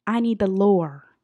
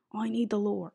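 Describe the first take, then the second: First: Loud, drawn-out plea; emphatic demand. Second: Said in the usual way. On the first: Real, not acted. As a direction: demand it loudly, stretching the words. Emphatic demand, then repeated normally.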